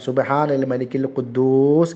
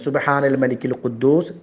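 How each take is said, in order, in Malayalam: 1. ഈ വാക്യം ശബ്ദമുയർത്തി നീട്ടിയാണ് പറയുന്നത്. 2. ഈ വാക്യം സാധാരണ ദൈർഘ്യത്തിലും സാധാരണ ശബ്ദത്തിലുമാണ് പറയുന്നത്.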